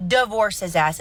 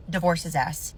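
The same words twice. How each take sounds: First: Divorce punched louder the second time; firm, louder insistence on Divorce; emphatic repeat. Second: Said in the usual way. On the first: Shown as a demonstration. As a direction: hit Divorce hard, drive it home.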